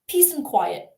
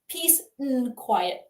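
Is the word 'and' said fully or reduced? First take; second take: reduced; full. First: The word 'and' is reduced and run together. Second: The word 'and' is said fully and separately. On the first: "when we're speaking quickly is simply mm" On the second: "You don't have to say"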